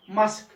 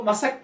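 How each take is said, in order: First: मस्क in one syllable; written pronunciation. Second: मसक in two syllables, ma-sak; taught pronunciation. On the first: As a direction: close स straight into क in मस्क. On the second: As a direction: open a vowel between स and क in मसक. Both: Shown as a demonstration. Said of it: "हमको मसक पढ़ना चाहिए".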